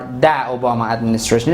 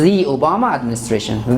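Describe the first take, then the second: First: The article is said with a short 'thuh' vowel. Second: The article is said with a long 'thee' vowel. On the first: The speaker calls it wrong. "this article is not uh, pronounced da" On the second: The speaker calls it right. "This is the Obama administration"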